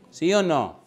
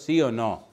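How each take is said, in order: First: Pressing louder. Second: Said in the usual way. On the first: Acted. Presses the congregation again.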